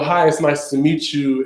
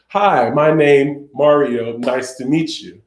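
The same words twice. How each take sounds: First: Said in the usual way. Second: Slow, separated stiff phrases; just hitting signs. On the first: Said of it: "I tell you to sign, you know". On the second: Shown as a demonstration. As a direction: recite it sign by sign without flow. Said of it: "not to just hit the signs".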